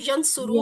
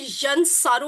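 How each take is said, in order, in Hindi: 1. दूसरा स्वर छोटा 'u' है। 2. दूसरा स्वर लंबा 'a' है। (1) "वो यंसुरू होता है" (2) "वो यंसारू नहीं"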